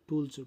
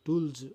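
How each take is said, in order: The two takes are said the same way.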